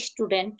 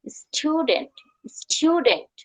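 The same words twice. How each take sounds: First: Softer স্টুডেন্ট as "ish-tu-dent"; common mispronunciation. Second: Higher স্টুডেন্ট as "styu-dent", with y-glide; correct pronunciation. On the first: Teacher quoting what we usually say, mispronounced "ish-tudent". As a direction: say স্টুডেন্ট with plain oo, no y-glide. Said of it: "এটা রং pronunciation". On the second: Teacher modelling the right pronunciation, "styu-dent". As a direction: say স্টুডেন্ট "s-tyoo-dent", no leading i. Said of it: "সঠিক pronunciation". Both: Shown as a demonstration.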